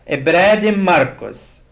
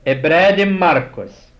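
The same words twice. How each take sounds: The two takes are said the same way.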